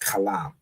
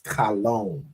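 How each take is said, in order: First: The second syllable has an 'ah' vowel. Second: The second syllable has an 'o' vowel. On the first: This is the real pronunciation. The speaker calls it right. "but really, you know, it's kalam" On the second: This is how the oppressor shows it. The speaker calls it wrong. "he pronounced it as kalom"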